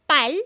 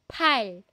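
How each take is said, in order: First: The p is said without a puff of air. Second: The p is said with a puff of air. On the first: The speaker calls it wrong. "hindi yan pal" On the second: The speaker calls it right. "Pal, may hangin. aspirated na letter P yan"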